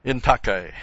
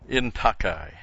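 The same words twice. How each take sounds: First: "In takai" as een TAH-kai, stress on the first syllable; Greek pronunciation repeated. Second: "in takai" said as een TAH-kai; careful Greek "in takai"; Greek pronunciation. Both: Shown as a demonstration. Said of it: "indicated by the phrase".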